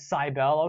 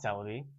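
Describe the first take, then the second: First: The first syllable sounds like 'cyber'. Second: The first syllable does not sound like 'cyber'. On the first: "Cyber. So it takes place online" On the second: "That's not Celebi"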